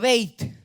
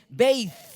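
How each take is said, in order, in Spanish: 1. La palabra termina con un sonido t simple. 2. La palabra termina con un sonido th.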